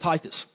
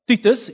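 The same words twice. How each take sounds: First: The name is said with an English pronunciation. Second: The name is said with an Afrikaans pronunciation. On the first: The speaker calls it right. "instead of Titus" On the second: The speaker calls it wrong. "most Afrikaans people get our surname wrong. Well, not wrong, pronounce it like Titus"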